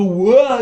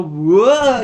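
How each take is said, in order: First: Loud, higher startled whoa; hammed-up surprised whoa; mock whoa. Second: Loud, higher falling whoa; hammed-up falling whoa; mock whoa. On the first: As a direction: yelp it as if knocked back. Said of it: "You go". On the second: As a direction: yelp as you tumble down. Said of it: "You fucking go".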